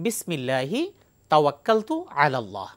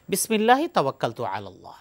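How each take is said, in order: First: It is said slowly. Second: It is said at normal speed.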